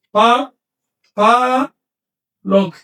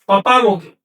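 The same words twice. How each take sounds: First: Pa, pa, lo said as separate beats with pauses; split into syllables. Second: Said in the usual way. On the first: Shown as a demonstration. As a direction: break the word into its syllables for students. (Pa, pa, lo separado en sílabas con pausas) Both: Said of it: "les voy a poner otro caso".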